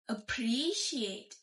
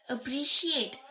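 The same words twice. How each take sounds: First: The stress is on the first syllable. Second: The stress is on the last syllable. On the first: "The uh, beginning syllable appre is got stressed" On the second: "The last syllable is the stressed one"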